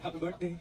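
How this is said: It is said in a sad tone.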